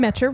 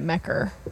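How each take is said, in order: First: The middle consonant is a 'ch' sound. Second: The middle consonant is a 'k' sound. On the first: "Metcher rhymes with catcher" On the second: "I always have been saying it Mecker"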